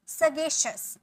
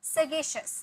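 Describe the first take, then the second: The two takes are said the same way.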